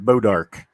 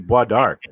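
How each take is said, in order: First: The name is said as an anglicized 'Bodark'. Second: The name is said with a French pronunciation. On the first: The speaker calls it wrong. "But they pronounce it" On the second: The speaker calls it right. "if you pronounce it right"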